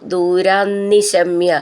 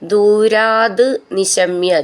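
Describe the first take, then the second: First: The words are joined with a double n sound. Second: The words are separate, ending in a t sound.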